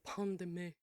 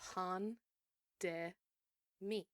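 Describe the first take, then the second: First: It is said in a snooty, nasal voice. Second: It is said in a plain, ordinary voice.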